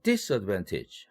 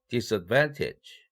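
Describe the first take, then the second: First: The main stress falls on the prefix dis-. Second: The main stress falls on the stem.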